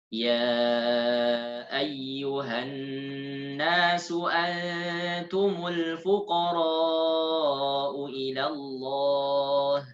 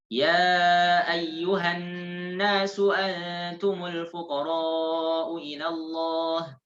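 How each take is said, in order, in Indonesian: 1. Dibaca dengan tempo sedang. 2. Dibaca dengan tempo cepat. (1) "Bacaannya tidak terlalu lambat, tidak terlalu cepat" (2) "Hadar ini bacanya lebih cepat dari yang tadi"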